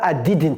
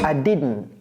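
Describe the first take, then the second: First: The d sounds are clearly pronounced. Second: The d sound is swallowed. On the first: The speaker calls it wrong. "C'est pas I didn't" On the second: The speaker calls it right. "c'est I didn't"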